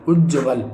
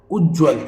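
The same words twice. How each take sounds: First: उज्ज्वल as "uj-ja-val"; mispronounced उज्ज्वल. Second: Said in the usual way. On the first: Shown as a demonstration. Teacher showing a misspelling, उज्ज्वल in three syllables. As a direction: add a vowel before v. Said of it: "जबकि आधा जा". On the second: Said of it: "ये बिल्कुल शुद्ध है".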